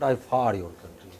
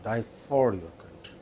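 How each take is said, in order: The two takes are said the same way.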